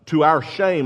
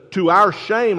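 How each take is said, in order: First: Said in the usual way. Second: Sarcastic. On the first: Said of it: "He's being sarcastic". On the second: Retold or imitated. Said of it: "That's another sarcastic".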